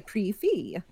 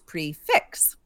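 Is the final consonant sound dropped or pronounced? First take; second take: dropped; pronounced. First: The final consonant sound is dropped. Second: The final consonant sound is pronounced. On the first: The speaker calls it wrong. "if we don't know fix. The rules of French, we will say prefi" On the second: The speaker calls it right. "it's actually ... That it is prefix"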